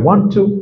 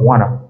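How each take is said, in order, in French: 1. Les deux mots sont dits entièrement et séparément. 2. Les mots sont condensés en un seul mot réduit. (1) "Au lieu de dire" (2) "ils vont utiliser, par exemple, wanna"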